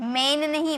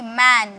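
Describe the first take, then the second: First: The vowel sounds like the e in 'men'. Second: The vowel sounds like the open a in 'man'. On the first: The speaker calls it wrong. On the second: The speaker calls it right.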